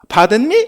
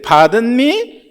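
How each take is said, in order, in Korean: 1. 질문이 퉁명스럽고 무시하는 것처럼 들려요. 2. 질문이 정중하고 공손하게 들려요. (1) "약간 인종차별적인 약간 무시하는 말투" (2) "이래야 되는데"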